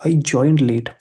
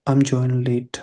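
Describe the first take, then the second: First: "I joined" said louder, falling on "late"; corrected restatement. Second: Said in the usual way. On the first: Shown as a demonstration. Teacher correcting a late student's message, emphatic "I joined". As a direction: press firmly on "I joined".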